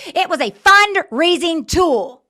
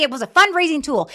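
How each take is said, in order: First: Fundraising hammered, slow and louder; slow emphatic repeat. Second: Said in the usual way. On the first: Real, not acted. Host repeating the charge to viewers, slow and emphatic. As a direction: lean hard on fundraising the second time. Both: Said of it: "repeats the line for emphasis".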